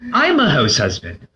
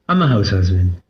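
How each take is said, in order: First: It is said clearly and proudly. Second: It is mumbled, quiet and unclear.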